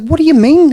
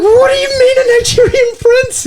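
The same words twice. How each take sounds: First: Acted-out baffled question, pitched up; mildly incredulous retelling; puzzled disbelief. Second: Very high, squealed mock disbelief; hammed-up high-pitched astonishment; comic incredulity. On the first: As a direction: ask it higher, as if thrown. Acting out his puzzled question. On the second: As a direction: shoot way up in pitch, drawing out the outraged question. Retells his escalating disbelief at her.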